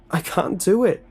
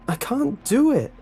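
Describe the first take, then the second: First: Much higher and louder, pleading in fear. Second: Shrieked very high and loud; terrified shriek. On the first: Tied-up boy pleading with the lunch lady, frightened. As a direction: beg her to stop. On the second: Tied-up boy shrieking at the lunch lady in terror. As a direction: break into a panicked shriek. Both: A narrator's reading.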